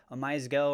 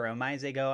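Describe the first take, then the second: First: "Omize Go" as a first guess at the name; uncertain pronunciation. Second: "Omize Go" as a second guess at the name; alternative pronunciation. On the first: Host unsure of the coin's name, tentative pronunciation. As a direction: try "Omize Go" one way, unsure. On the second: Host offers another reading of the coin's name, tentative. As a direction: try "Omize Go" another way, unsure. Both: Real, not acted. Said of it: "not quite sure how to totally say that".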